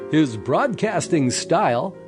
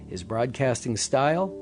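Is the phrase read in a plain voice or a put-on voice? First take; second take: put-on; plain. First: It is read in a put-on, performed voice. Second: It is read in a plain, ordinary voice.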